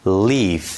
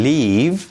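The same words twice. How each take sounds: First: "leaf" ending in an airy, voiceless f; final voiceless f. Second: "leave" ending in a buzzed, voiced v; final voiced v. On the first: Teacher shows how to practise, voiceless f ending "leaf". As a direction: say "leaf" drawn out, closing on f. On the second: Teacher models for repetition, voiced v ending "leave". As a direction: say "leave" drawn out, closing on v. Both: Shown as a demonstration.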